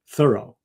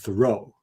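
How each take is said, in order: First: The stress is on the first syllable. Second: The stress is on the last syllable. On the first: This is how the man himself likely said it. "he pronounced his name with an accent on the first syllable" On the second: This is the common way people say the name. "with an accent on the last syllable"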